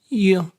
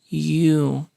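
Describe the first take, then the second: First: The vowel is a short oo sound. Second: The vowel is a long oo sound. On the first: "reduced to you, with a short oo sound" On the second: "strong form, with a long oo sound"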